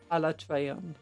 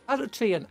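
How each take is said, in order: First: The name ends with an 'on' sound. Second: The name ends with an 'an' sound. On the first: This is the official pronunciation. "officially it's pronounced as Alatreon" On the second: This is how many people commonly say it. "you've had a decade plus that pronounce it as Alatrian"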